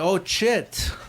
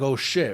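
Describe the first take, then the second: First: The word begins with a ch sound. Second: The word begins with a sh sound. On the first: Someone else with a foreign accent said it. "he had a crazy fucking accent" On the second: It is said the usual way. "instead of saying like"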